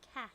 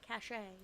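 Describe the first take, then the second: First: It is said as one short syllable. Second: It is said with an accented final vowel. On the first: "without the little accent mark" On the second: "with the accent mark"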